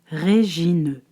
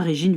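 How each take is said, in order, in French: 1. Le nom est prononcé lentement, syllabe par syllabe. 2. Le nom est prononcé rapidement, les syllabes sont liées. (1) "Il fallait lire Régine" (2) "et non pas Régine vite fait"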